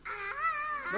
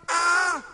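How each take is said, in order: First: Very high, thin mock shriek "Ah"; high scream. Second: Short loud mock scream "Ah". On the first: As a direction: shriek like a frightened sailor. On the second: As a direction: scream it out for the kids to copy. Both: Shown as a demonstration. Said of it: "schreien laut".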